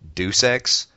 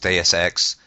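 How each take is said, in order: First: The first word sounds like 'deuce'. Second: The first word does not sound like 'deuce'. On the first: The speaker calls it wrong. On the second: The speaker calls it right.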